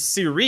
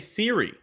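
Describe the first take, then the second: First: The stress is on the second syllable. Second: The stress is on the first syllable. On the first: The speaker calls it right. "got an accent on the second I" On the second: The speaker calls it wrong. "it's not Jose Siri"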